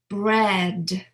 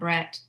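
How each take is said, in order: First: The final consonant is a voiced D. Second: The final consonant is an unvoiced T. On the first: The speaker calls it right. "I'm really pronouncing that last sound as a voiced sound" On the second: The speaker calls it wrong. "It's not Brett"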